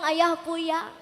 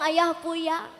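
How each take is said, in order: First: The l sound is replaced by a y. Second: The l sound is replaced by a y.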